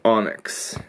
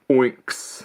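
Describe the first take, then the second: First: The word begins with an 'on' sound. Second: The word begins with an 'oin' sound. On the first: The speaker calls it right. "heard the proper pronunciation on a video" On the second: The speaker calls it wrong. "I always pronounce it like Oinks. I was pronouncing it wrong"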